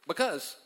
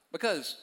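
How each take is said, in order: Both takes have the same delivery.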